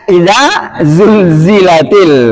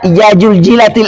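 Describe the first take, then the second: First: The z sounds are said as z. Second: The z sounds are said as j. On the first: The speaker calls it right. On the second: The speaker calls it wrong. "Za, jangan dibaca ja"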